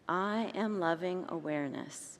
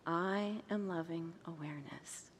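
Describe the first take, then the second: First: The phrase is said at normal volume. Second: The phrase is said quietly and softly.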